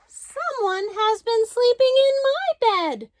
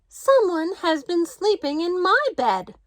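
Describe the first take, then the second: First: It is said in a wee small voice. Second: It is said in a middle-sized voice.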